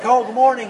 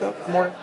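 First: The greeting is said loudly and eagerly. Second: The greeting is said softly and quietly. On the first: The speaker wants to engage in conversation. The speaker calls it wrong. "don't say like" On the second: The speaker responds politely without engaging further. The speaker calls it right. "Say it quietly"

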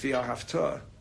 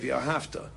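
First: The stress falls on the last syllable. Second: The stress falls on the second-to-last syllable. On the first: The action is to happen in the future. The speaker calls it right. "It's V'ahavta" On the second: The action happened in the past. The speaker calls it wrong. "most people say V'ahavta es Hashem alakecha, and that means past tense"

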